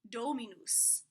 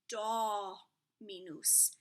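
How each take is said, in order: First: The first vowel is a closed O sound. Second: The first vowel is an open O sound. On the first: The speaker calls it wrong. "I learned do" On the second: The speaker calls it right. "It is an open O"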